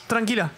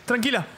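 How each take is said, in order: Both takes have the same delivery.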